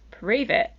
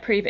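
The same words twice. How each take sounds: First: It is said in a friendly, sincere tone. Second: It is said in a nasty, dismissive tone. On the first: The challenger genuinely wants to see evidence. "He went" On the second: The challenger doubts and belittles the claim. "it wasn't in like a nasty way, like"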